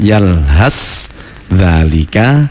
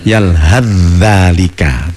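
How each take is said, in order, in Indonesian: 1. Konsonan terakhir kata pertama dibaca terpisah. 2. Konsonan terakhir kata pertama dibaca menyatu dengan kata berikutnya. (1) "Yang tulisannya" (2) "harus dibaca"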